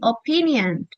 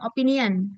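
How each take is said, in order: First: The 'pi' part is said long. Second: The 'pi' part is said short. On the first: The speaker calls it right. "P-nya itu panjang ya" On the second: The speaker calls it wrong. "bukan opinion"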